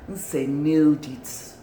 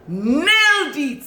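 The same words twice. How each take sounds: First: Said in the usual way. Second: High, drawn-out NAILED; excited, stretched exclamation; emphatic praise. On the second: Real, not acted. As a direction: belt out "Nailed it" slowly, high then falling.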